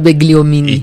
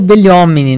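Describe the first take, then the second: First: The 'gl' is said with a hard G. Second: The 'gl' is a soft palatal 'lh' sound. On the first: This is a Brazilianized pronunciation. "a gente dá uma brasileirada e lê o G junto" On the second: This is the original, correct pronunciation. "o certo é o Begliomini"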